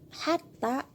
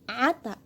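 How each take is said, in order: First: The word begins with an h sound. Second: The word begins with a throaty ayn sound. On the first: "kata hatta" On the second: "Beberapa suku menyebut kata hatta dengan ata"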